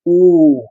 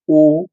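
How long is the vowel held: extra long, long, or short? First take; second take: extra long; short. First: The vowel is drawn out about three times as long. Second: The vowel is held very briefly. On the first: The vowel takes three units of time. "ये प्लुत है" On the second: The vowel takes one unit of time. "ये हिरस्व है"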